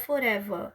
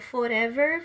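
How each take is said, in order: First: The final r is dropped. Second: The final r is pronounced.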